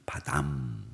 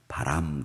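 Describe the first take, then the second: First: The middle consonant is a D sound. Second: The middle consonant is an R-like flap. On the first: The speaker calls it wrong. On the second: The speaker calls it right.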